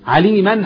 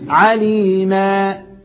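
First: The word ends with an n sound. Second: The word ends with a long a vowel. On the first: The word continues into the next word. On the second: The reader stops on this word.

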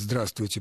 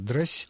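First: All syllables of the word are pronounced. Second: The word is squeezed into one short syllable.

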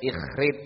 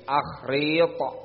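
First: The name begins with an 'i' vowel. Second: The name begins with an 'a' vowel. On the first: The speaker calls it wrong. "bukan ikhrit" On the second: The speaker calls it right. "tapi akhrit"

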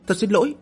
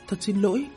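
First: It is shouted out loudly and forcefully. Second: It is said very quietly, almost under the breath. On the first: The apology is forced out in frustration. "quát to một tiếng" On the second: The apology is reluctant and embarrassed. "dùng thanh âm nhỏ như tiếng mũi kêu nói"

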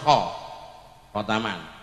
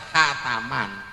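First: The first vowel sounds like a rounded o. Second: The first vowel sounds like an open a. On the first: The speaker calls it right. "Sing bener khotaman" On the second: The speaker calls it wrong. "Jenengan wis ketelah khataman"

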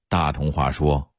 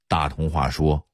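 Both takes have the same delivery.

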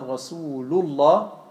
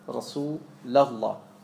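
First: The vowel after Rasul sounds like u. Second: The vowel after Rasul sounds like a. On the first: The speaker calls it right. "statt Rasul" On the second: The speaker calls it wrong. "Ein bekannter Fehler ist ... sie sagen Rasulallah"

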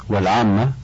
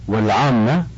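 No difference in how they are said.

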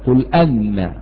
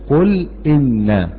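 First: The second word begins with an 'a' vowel. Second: The second word begins with an 'i' vowel. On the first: The speaker calls it wrong. "ولا تقل قل أن" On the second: The speaker calls it right. "وإنما تقول إيه؟ قل إن"

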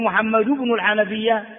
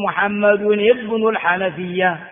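First: The middle word is said as short 'bin'. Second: The middle word is said as full 'ibn'. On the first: The speaker calls it wrong. "ما تقول" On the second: The speaker calls it right. "تقول"

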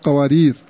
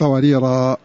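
First: The word ends on the consonant r. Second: The word ends with a long a vowel. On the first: "الوقف عليه بدون ألف" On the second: "ويقف عليه بالألف"

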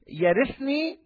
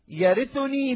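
First: No vowel comes before the final ni. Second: A short u vowel comes before the final ni. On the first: The verb is the answer to the preceding request. "ونقرأ يرثني بالجزم" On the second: The verb simply describes the heir who will inherit. "نقرأ يرثني بالرفع"

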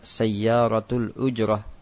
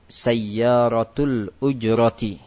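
First: The last word ends cut short in -ah. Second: The last word ends with the full -ati ending. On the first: The reader stops on the word. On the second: The word is read without stopping on it.

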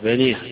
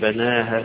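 First: The final long a leans fully toward e. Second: The final long a stays fully open. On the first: "بالإضجاع أو بالإمال يقول بنيها" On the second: "إما الفتح"

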